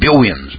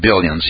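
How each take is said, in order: First: The word is said with a lisp. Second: The word is said clearly without a lisp. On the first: "he had billions" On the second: "He couldn't say billions"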